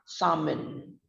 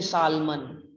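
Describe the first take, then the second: First: The l sound is silent in the word. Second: The l sound is pronounced in the word. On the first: The speaker calls it right. "we pronounce it as a salmon. Sam in" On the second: The speaker calls it wrong. "we don't say salmon"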